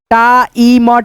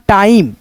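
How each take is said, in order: First: "time" split as taa-ee-ma; broken into sounds. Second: Said in the usual way. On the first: Shown as a demonstration. Teacher breaks down time for learners, separated sounds. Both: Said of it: "क्या पढ़ेंगे दोस्तों".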